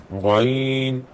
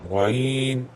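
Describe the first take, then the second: The two takes are said the same way.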